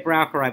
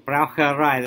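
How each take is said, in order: First: The stress falls before the final syllable. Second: The stress falls on the final syllable. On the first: The speaker calls it wrong. "We say Braucherei, but sorry" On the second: The speaker calls it right. "The stress is actually on the ending"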